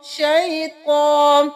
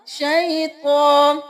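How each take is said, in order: The two takes are said the same way.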